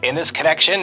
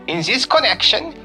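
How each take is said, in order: First: It is read in a put-on American accent. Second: It is read in a put-on German accent.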